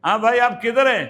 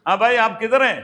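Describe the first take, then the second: No difference in how they are said.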